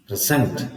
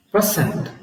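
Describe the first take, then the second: First: "present" with a low pre and a strong SENT; stress on second syllable. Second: "present" with PRE high, falling away; stress on first syllable. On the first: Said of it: "the stress is on the second syllable". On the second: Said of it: "The stress is on the". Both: Shown as a demonstration.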